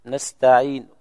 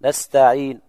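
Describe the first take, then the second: First: نستعين with the final vowel barely voiced, a third of a damma; rawm on نستعين. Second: نستعين closed on a whispered third of a damma; rawm on نستعين. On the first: Sheikh showing rawm to students, نستعين ending in a faint u. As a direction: end نستعين on a faint, short u. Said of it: "صوت منخفض، ثلث الحركة". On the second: Sheikh repeating the example for the class, نستعين with a faint u. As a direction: keep the final u of نستعين faint and short. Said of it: "ما هي ضمة كاملة؟". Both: Shown as a demonstration.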